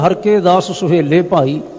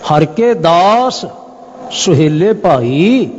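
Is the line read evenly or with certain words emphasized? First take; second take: even; emphasized. First: The line is read evenly without special emphasis. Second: Certain words are emphasized to bring out meaning. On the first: The words are simply recited. "ਅਸੀਂ ਸਹਿਜ ਭਾਅ ਪੜ੍ਹ ਲਈਏ" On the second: The key point of the verse is made clearer. "ਕੁਝ ਅੱਖਰਾਂ ਤੇ ਵਿਸ਼ੇਸ਼ ਬਲ ਦੇ ਕੇ"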